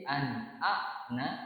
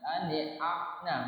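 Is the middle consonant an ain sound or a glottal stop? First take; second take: glottal stop; ain sound. First: It has a light glottal stop in the middle. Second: It has a throaty ain sound in the middle. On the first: The speaker calls it right. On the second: The speaker calls it wrong.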